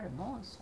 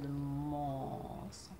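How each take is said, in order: First: The m sound is short and clipped. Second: The m sound is held very long. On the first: The speaker calls it wrong. "On ne dit pas" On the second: The speaker calls it right. "on dit ... ça permet de faire le me après"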